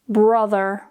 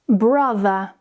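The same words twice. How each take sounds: First: The final R sound is clearly pronounced. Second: The final R sound is not pronounced. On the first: "with more of an American accent" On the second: "with more of a British accent"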